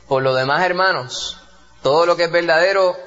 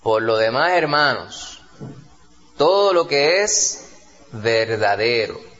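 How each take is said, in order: First: It is read in a plain, ordinary reading voice. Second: It is read with strong, deliberate vocal expression.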